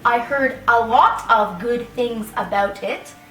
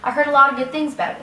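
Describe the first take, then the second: First: 'A lot of' is said fully and slowly. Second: 'A lot of' is squeezed into quick 'lotta'. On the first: It sounds formal. "I don't usually say, ... It's so long" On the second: It sounds informal. "If we want to speak informally, we usually want to speak faster"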